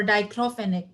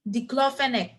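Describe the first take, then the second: First: Diclofenac starting with "dye", long i; long-i first syllable. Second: Diclofenac starting with "dik", short i; short-i first syllable. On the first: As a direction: say "dye-KLO-fe-nek" for diclofenac. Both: Shown as a demonstration. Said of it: "you can pronounce it anyhow you like".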